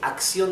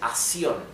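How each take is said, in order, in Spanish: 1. Las dos c se pronuncian claramente. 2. El primer sonido de la c se omite. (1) "en vez de decir acción" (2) "dicen acción"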